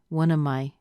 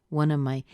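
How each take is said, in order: The two takes are said the same way.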